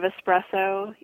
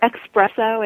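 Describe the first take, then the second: First: The word begins with an 'ess' sound. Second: The word begins with an 'ex' sound. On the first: The speaker calls it right. "instead of espresso" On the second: The speaker calls it wrong. "with an X instead of an S"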